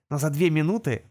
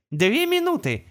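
First: Said in the usual way. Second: High, prompt navigator reply; gps voice. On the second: Acted. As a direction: answer at once like a navigator. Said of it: "незамедлительно откликнулся навигатор".

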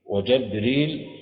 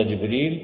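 First: وجبريل slowly as "wa-Jabril"; fatha on jim. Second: جبريل as "Jibril", short i first; kasra on jim. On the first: Teacher recapping the four recited forms, وجبريل with fatha on the jim. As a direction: open the jim of وجبريل to a short a. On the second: Teacher recapping the four recited forms, جبريل with kasra on the jim. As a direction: give جبريل an i after the jim. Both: Shown as a demonstration. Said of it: "الأربعة التي تواترت فيها القراءات".

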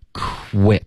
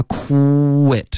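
First: "quit" with a whispered kw, voice starting only as the lips open; "quit" split into airy onset and voiced ending; voiceless kw onset. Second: "quit" with a long, high voiced "koo" before the ending; "quit" as "kooo-wet", throat buzzing from the start; wrongly voiced onset. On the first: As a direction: breathe the kw, then voice the rest of "quit". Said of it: "直到我嘴唇要开始分开发". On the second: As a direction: drag out a sung-out oo in "quit". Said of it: "不要先发". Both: Shown as a demonstration.

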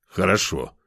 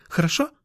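First: Falling, sighed agreement; resigned sigh. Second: High, rising little question; pleading cat girl. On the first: A narrator's reading. Man agreeing to wait, resigned sigh. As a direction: give in with a sigh. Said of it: "Вздохнул". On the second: Acted. Girl seeking lover's consent, high and pleading. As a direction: ask hopefully in a high girlish voice.

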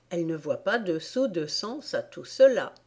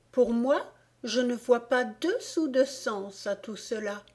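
First: Said in the usual way. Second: Lightly voiced Alice, pitched higher; outspoken Alice. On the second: A narrator's reading. Alice giving the court her opinion of the poem, outspoken. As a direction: give a higher-pitched, dismissive verdict.

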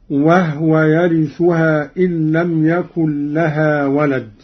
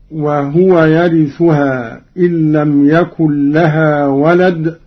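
First: وهو recited as wahwe, the ha silent; Qalun reading. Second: Chanted recitation with the ha of وهو voiced as wahuwa; Quran recitation. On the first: Teacher demonstrates Qalun's reading, silent ha in وهو. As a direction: clip وهو to wah-we with a still ha. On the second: Teacher recites the verse first in the usual reading, wahuwa. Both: Shown as a demonstration. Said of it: "قرأ قالون بإسكان الهاء".

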